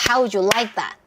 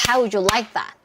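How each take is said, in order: The two takes are said the same way.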